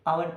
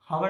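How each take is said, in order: First: The word begins directly with a vowel sound. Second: The word begins with an audible h sound. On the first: The speaker calls it right. "आवर पढ़ते हैं" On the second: The speaker calls it wrong. "हावर नहीं पढ़ते"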